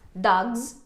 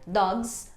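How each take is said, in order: First: The word ends with a buzzing z sound. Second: The word ends with a hissing s sound. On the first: "esse som aqui provavelmente vai ser um Z" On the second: "se eu disser dogs com um S no final"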